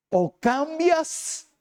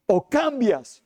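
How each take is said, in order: First: "cambias" drawn out slowly and pitched high; slow emphatic ultimatum. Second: Said in the usual way. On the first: Acted. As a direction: stretch "O cambias" as a stern final warning. Preacher gives God's ultimatum. (ultimátum lento y enfático)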